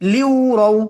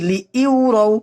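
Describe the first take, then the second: First: The syllables glide together without a glottal stop. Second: A glottal stop separates the two syllables. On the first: The speaker calls it right. "এখানে হামজা উচ্চারণ হবে না, সরাসরি লিউ" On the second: The speaker calls it wrong. "অনেকেই পড়ি লি ইউরাও, এখানে কিন্তু হামজা না"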